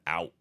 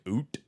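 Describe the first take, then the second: First: The vowel sounds like 'ow' in cow. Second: The vowel sounds like 'oo' in boot. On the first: "the word out" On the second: "Sounds like oot, like boot"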